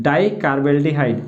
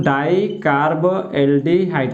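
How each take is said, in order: First: Said in the usual way. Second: डाइकार्बोल्डिहाइड at half speed, each part separate; measured dictation of डाइकार्बोल्डिहाइड for students; piece-by-piece dictation. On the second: Shown as a demonstration. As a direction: slowly break डाइकार्बोल्डिहाइड into its parts. Teacher repeats the term in pieces.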